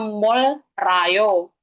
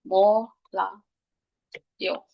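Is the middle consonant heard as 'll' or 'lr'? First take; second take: lr; ll. First: The middle sounds like an L followed by R. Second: The middle sounds like a double L. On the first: "kalau dibaca kan harusnya mol rayo" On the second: "dibacanya double L ini dibacanya L"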